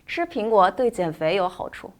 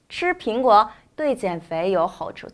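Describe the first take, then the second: First: The sentence is said at a faster pace. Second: The sentence is said at a slower pace.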